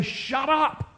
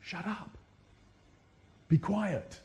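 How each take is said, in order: First: High sneering rebuke; a higher, scornful hush from the crowd; mock rebuke. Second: Hushing the blind man. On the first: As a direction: disciples waving a blind beggar off in a mocking high voice. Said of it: "and they say". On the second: Retold or imitated. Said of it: "they're the ones to say".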